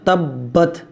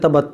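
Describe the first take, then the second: First: The b sound is held and doubled. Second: The b sound is short and single. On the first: The speaker calls it right. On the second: The speaker calls it wrong. "बाद लोग इसको पढ़ते हैं तबत, तबत नहीं"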